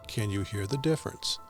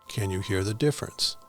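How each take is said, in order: First: It is recorded at a low fader level. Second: It is recorded at a middle fader level. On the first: "Level six" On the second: "Level seven"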